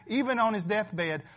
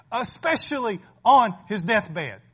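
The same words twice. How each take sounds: First: Said in the usual way. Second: Especially on his deathbed, louder and slow; stress on especially. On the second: Shown as a demonstration. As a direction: lean hard on especially, drawn out.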